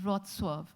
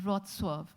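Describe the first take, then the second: First: The name is said with its Polish pronunciation. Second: The same.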